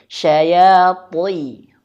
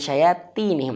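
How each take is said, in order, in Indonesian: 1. Bunyi 'ta' itu tebal dan berat. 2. Bunyi 'ta' itu tipis dan ringan. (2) "jangan syayatinihim"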